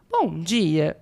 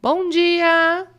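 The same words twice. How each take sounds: First: "Bom dia" low, DIA dropping firmly; a curt, uninterested "Bom dia" falling at the end; indifferent greeting. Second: "Bom dia" high and loud, DIA held up brightly; animated greeting. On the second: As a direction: sing out "Bom dia" with lively, raised intonation. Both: Shown as a demonstration. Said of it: "cada uma das vezes eu usei uma entonação".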